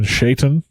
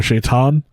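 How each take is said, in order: First: Shaitan with a short, unstressed "-tun" ending; different pronunciation. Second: Shaitan with a long open "-tahn" ending; alternative pronunciation. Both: Shown as a demonstration. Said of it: "use a slightly different pronunciation".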